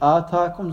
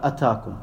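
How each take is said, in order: First: The first vowel is long. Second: The first vowel is short. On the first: Something was given to you. "Nicht Atakum" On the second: Something came to you. "also ist ein kurzes A"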